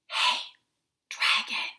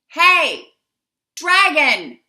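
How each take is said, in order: First: It is whispered very softly. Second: It is shouted very loudly.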